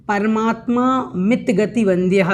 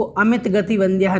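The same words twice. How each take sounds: First: परमात्मा मित गति वंद्यः with मित split clearly from परमात्मा; correct pronunciation. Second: अमित गति वंद्यः with the अ joined onto मित; wrong pronunciation shown. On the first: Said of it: "परमात्मा मित गति वंद्यः है". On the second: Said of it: "इसको अमित गति वंद्यः नहीं बोलें". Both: Shown as a demonstration.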